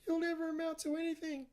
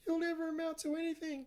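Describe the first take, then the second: First: It is said in a very high-pitched voice. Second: The same.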